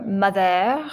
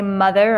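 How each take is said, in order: First: "mother" with a French accent, stressed on the end; light French accent. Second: Said in the usual way. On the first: Shown as a demonstration. Teacher offering learners another way to say a name, light French accent. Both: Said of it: "say it with a little French accent".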